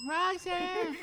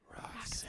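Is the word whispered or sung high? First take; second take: high; whispered. First: It is said in a high voice. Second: It is said in a breathy whisper.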